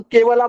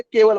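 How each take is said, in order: First: "केवला" with an added long आ at the end; mispronunciation shown. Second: "केवल" ending on the l, no vowel after it; correct pronunciation. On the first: Teacher showing what we cannot say, mispronunciation demonstrated. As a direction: end "केवला" on a full aa vowel. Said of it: "हम केवला बोल नहीं सकते". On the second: Teacher showing what should be said, correct pronunciation. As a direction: stop "केवल" cleanly on the final l. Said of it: "केवल बोलना है". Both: Shown as a demonstration.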